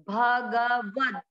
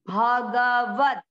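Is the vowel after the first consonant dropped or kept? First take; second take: kept; kept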